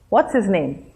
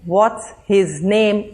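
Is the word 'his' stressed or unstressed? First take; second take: unstressed; stressed. First: The word 'his' is unstressed. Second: The word 'his' is stressed.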